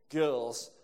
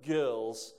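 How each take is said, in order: Both takes have the same delivery.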